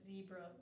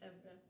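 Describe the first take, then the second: First: It starts with a voiced buzzing z sound. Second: It starts with a voiceless hissing s sound. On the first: "or zebra" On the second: "would be zebra. And that's how you say it in Spanish"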